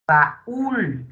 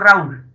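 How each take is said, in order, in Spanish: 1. La a y la u van en sílabas separadas. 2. La a y la u se unen en una sola sílaba. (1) "para romper el diptongo" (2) "no digo Raúl"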